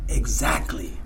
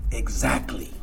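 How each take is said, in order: First: Exactly whispered, low and soft; whispered agreement. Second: Low, soft knowing exactly; quiet agreement. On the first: Sponsor confirming again, in a whisper. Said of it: "Eso que él me dice". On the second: Sponsor confirming his point, low and soft. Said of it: "Y él dijo". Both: Retold or imitated.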